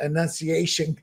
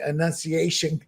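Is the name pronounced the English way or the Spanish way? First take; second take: English; English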